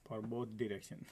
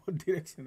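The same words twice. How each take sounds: First: Said in the usual way. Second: Laughing emphasis. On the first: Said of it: "Both direction, right?". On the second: Shown as a demonstration. Trader to viewers, amused and louder. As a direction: repeat it with a laugh, higher and louder.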